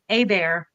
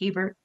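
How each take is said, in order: First: The name is pronounced the French way. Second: The name is pronounced the English way. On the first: This is how the name is said locally. "the French version of it" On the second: This is how everyone else says the name. "everybody else is Hebert"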